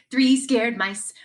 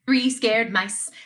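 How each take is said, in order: Both takes have the same delivery.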